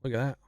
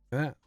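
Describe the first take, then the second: No difference in how they are said.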